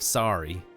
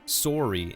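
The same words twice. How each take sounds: First: It is said with an American accent. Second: It is said with a Canadian accent.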